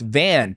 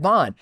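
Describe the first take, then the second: First: The name has a short 'a' vowel, like 'an'. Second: The name has an 'aw' vowel, like 'on'. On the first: This is the official pronunciation. The speaker calls it right. "it's pronounced Van" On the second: This is how someone else said it. The speaker calls it wrong. "Somebody said Vaughn"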